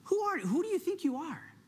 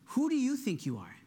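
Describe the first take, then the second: First: High-pitched voice of the accuser; accusing enemy. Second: Less pitched-up, searching question; Holy Spirit asking. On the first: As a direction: challenge them as the taunting enemy. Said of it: "the enemy loves to stir up the question". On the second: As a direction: ask it sincerely as the Holy Spirit. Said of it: "the Holy Spirit is asking you this morning". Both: Acted.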